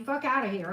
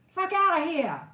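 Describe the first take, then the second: First: It is said in the speaker's plain accent. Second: It is said in a New Jersey accent.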